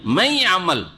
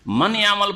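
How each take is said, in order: First: মাই আমাল with the n merged into y, nasal trace kept; merged but with a nasal hint; nasal partial idgham. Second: মান ইয়ামাল with a clear n before ya; the unmerged reading: n then ya; without merging the n. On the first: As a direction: pull the n through the nose into ya. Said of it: "নাকে টান দিয়ে পড়ছেন না?". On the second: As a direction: keep the n in মান separate. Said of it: "মান ইয়ামাল পড়ছেন না". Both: Shown as a demonstration.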